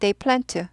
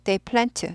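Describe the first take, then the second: First: It is said quickly, with the d sound dropped. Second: The same.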